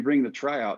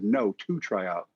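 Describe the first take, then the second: First: Said in the usual way. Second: Quoted correction, spoken slowly; slow down to clarify "two tryout"; retold slow, patient correction; slowed clarification. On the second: Scout repeats question to correct him.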